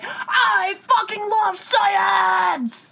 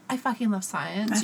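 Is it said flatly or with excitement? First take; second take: excitement; flatly. First: It is said with loud excitement. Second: It is said flatly, without energy.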